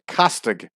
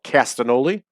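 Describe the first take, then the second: First: The middle G is sounded as hard G. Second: The middle G is left out entirely. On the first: "pronouncing the G" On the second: "we lazy in American English would call it"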